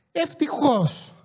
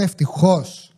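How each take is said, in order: First: Ευτυχώς stretched out slow and high, quieter; drawn-out relief. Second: Said in the usual way. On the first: Shown as a demonstration. Driver recalls escaping the highway jam, drawn-out relieved Ευτυχώς. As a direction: sigh out Ευτυχώς long and slow, pitched up.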